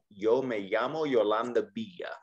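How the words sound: The y and ll sounds are soft, like Y. This is how it sounds in Mexico. "in Mexico, it's pronounced more like a Y"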